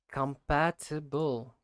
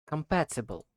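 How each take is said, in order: First: "Compatible" drawn out syllable by syllable; slow practice. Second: Said in the usual way. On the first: Shown as a demonstration. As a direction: slowly sound out com-PAT-i-ble in "Compatible". Practises the word slowly by syllables.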